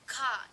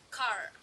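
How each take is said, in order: First: The final R sound is not pronounced. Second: The final R sound is clearly pronounced. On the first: "There is no R" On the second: "but in American we pronounce it like car"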